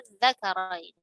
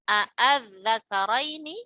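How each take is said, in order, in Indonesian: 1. Kata ini diawali dengan satu vokal yang sangat panjang. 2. Kata ini diawali dengan dua hamzah yang terpisah. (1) "dibaca ibdal ... Dibaca tul dengan enam harokat" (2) "Aslinya itu terdapat dua hamzah"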